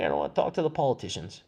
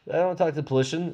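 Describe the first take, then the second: First: Said in the usual way. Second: "politician" squashed to "puh-LISH-un"; slip of the tongue. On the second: Real, not acted. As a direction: drop the middle syllable of "politician", saying "polition". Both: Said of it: "that's the new word".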